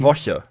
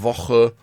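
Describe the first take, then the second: First: The ch is a soft hissing sound at the front. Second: The ch is a harsh sound from the throat. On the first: "kannst du Woche mit dem anderen CH mal aussprechen?" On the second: "Sachen ist wie bei Woche"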